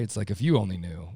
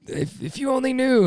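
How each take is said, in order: First: Said in the usual way. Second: Very high, strained "if you only knew"; exasperated plea. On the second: Retold or imitated. Husband pleading he's misunderstood, exasperated.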